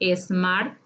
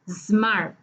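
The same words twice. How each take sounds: First: An extra vowel sound comes before the s. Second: The word begins directly with the s sound. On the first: The speaker calls it wrong. "sí tiene dos sonidos vocálicos" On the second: The speaker calls it right. "la pronunciación correcta es smart"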